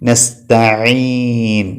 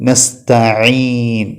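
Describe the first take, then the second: No difference in how they are said.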